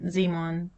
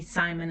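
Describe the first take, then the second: First: The name is pronounced the German way. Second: The name is pronounced the English way. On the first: "This is where my son Simon was born, which might explain the pronunciation of his name" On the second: "which would be Simon in English"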